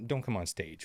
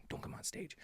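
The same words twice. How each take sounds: First: Said in the usual way. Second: Whispered, almost silent. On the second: Shown as a demonstration. Telling the babies, a near-silent whisper. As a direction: breathe it to the babies. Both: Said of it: "For all the babies listening".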